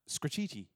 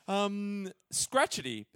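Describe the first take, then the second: First: The ending rhymes with graffiti. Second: The ending does not rhyme with graffiti. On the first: The speaker calls it right. "probably is pronounced to rhyme with graffiti" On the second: The speaker calls it wrong. "as we pronounced it"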